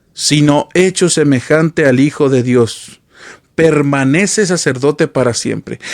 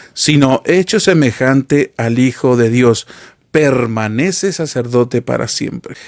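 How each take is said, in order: The two takes are said the same way.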